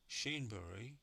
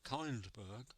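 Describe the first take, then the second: First: The name is pronounced the Swedish way. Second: The name is pronounced the English way.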